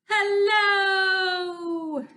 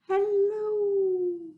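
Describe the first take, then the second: First: It is said very loudly. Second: It is said very quietly.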